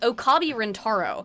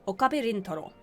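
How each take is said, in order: First: The name is said with English pronunciation. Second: The name is said with Japanese pronunciation. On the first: The speaker calls it wrong. "Why do you in English call him" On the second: The speaker calls it right. "how hard is it for you to say"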